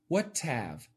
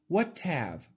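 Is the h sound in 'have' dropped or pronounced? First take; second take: dropped; dropped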